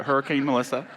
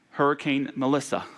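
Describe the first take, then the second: First: Quick clarifying stress on "Hurricane", rising at the end; "Hurricane" picked out in contrast, said briskly with a lift at the close. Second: Said in the usual way. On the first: Real, not acted. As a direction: set "Hurricane" apart as the one meant, ending on a rise. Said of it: "Not Melissa, our incredible A S L interpreter". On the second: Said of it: "but Hurricane Melissa".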